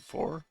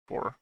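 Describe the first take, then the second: First: "Four?" asked with a high rising tune; questioning rise. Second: Said in the usual way. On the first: Real, not acted. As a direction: ask "Four?" as an unsure question. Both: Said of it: "Sorry, five?".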